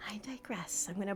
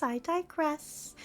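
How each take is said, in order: First: "I digress" in a whisper; whispered self-correction. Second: Said in the usual way. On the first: Shown as a demonstration. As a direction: breathe it as a private aside.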